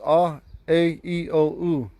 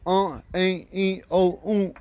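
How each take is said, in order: First: AH, A, E, O, U as clear oral vowels; plain oral vowels. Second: UH, A, E, O, U through the nose, higher; nasalized vowels. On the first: Teacher recites five regular Ponca vowels, plain oral sound. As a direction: list "ah, A, E, O, U" evenly, without nasalizing. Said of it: "Those are the five regular vowels". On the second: Teacher recites five Ponca vowels, nasalized. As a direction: nasalize each of "uh, A, E, O, U". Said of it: "when you use the nasalized". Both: Shown as a demonstration.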